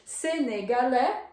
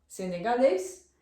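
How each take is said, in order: First: Senegalês as French "sé-né-ga-LÈ"; silent final S. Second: Said in the usual way. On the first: Shown as a demonstration. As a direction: say Senegalês with no S at the end. (Senegalês à francesa, sem S final) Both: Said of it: "o S no final a gente não pronuncia".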